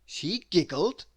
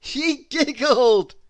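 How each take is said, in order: First: A touch of laughter; mild giggle. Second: Much louder, higher, slow laughing; big giggle. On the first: Narrator tells Miss Giggles giggled, light laugh. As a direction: start to bubble up. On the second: Narrator tells Miss Giggles giggled, laughing out loud. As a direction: let the giggle burst out. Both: A narrator's reading.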